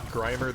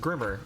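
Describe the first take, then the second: First: The first vowel sounds like in 'grime'. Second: The first vowel sounds like in 'grim'. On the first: The speaker calls it right. "it's a play on Grime" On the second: The speaker calls it wrong. "thought Grimer the Pokemon was pronounced Grimmer"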